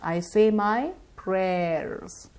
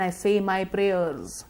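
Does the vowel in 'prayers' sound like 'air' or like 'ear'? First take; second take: air-like; ear-like. First: The vowel stays open like in air. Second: The vowel drifts toward an ear-like sound. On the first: The speaker calls it right. "No, I don't" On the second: The speaker calls it wrong. "we habitually mispronounce the sound. We would say things like prayer"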